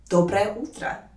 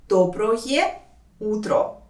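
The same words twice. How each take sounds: First: Said in the usual way. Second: «Доброе утро» with full final O sounds; slow, careful enunciation. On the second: Shown as a demonstration. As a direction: draw out «Доброе», pause, then «утро». Teacher shows endings slowly.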